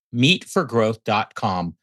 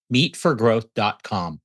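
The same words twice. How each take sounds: The two takes are said the same way.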